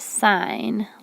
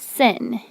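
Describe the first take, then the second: First: The vowel is long, as in 'fine'. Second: The vowel is short, as in 'fin'. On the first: The speaker calls it right. "You still pronounce it sine, like a road sign" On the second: The speaker calls it wrong. "it's not sin"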